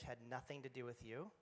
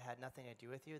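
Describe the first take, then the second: First: The phrase is spoken at a slower pace. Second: The phrase is spoken at a quick pace. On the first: "Can we say that again more slowly?" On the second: "I speak very quickly"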